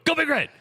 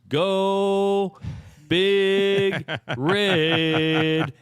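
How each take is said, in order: First: It is said fast. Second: It is said slowly.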